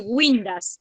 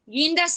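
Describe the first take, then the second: First: "guindas" said as "güindas", with a w glide after the g; U sounded. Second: Said in the usual way. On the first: Shown as a demonstration. Teacher showing the class the mistake, "guindas" pronounced "gwindas". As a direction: sound the U in "guindas": gwin-das. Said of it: "le pongo el U, voy a decir". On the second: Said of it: "Guindas sin U".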